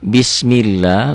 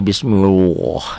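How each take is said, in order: First: The L in Allah is light and thin. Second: The L in Allah is heavy and thick. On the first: The speaker calls it right. "lafaz Allah ini dibaca tipis" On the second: The speaker calls it wrong. "Jangan dibaca bismillah"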